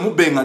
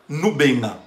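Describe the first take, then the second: First: The name begins with an m sound. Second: The name begins with an n sound. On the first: The speaker calls it right. "Quand je dis mon nom c'est Moubenga" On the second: The speaker calls it wrong. "dans votre cerveau ça, ça sonne Noubenga"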